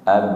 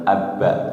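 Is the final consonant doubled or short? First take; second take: short; doubled. First: The final consonant is short with a light bounce. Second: The final consonant is doubled and held. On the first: The speaker calls it right. "Ab bukan abba" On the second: The speaker calls it wrong. "seperti tasdid abba"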